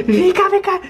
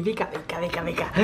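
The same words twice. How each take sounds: First: High, loud call to come here; calling the dog. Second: Low, hushed coaxing call to the dog; soft coaxing. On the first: Owner calling the dog across the yard, loud high call. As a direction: call out sharply, higher and louder. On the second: Owner coaxing the dog indoors, hushed and low. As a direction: coax the dog in softly under the breath. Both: Real, not acted.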